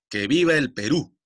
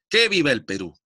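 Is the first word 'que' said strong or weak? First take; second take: weak; strong. First: The word que is said weakly, without stress. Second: The word que is said strongly, with stress. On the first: The speaker calls it right. "la palabra que no se tilda porque no suena fuerte" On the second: The speaker calls it wrong. "Si sonara fuerte, yo lo pronuncio así"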